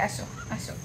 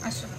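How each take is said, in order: First: Soft breathy whisper, coaxing; hushed beckoning whisper; whispered call. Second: Said in the usual way. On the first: Real, not acted. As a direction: whisper come here, come here. Calling the child over softly.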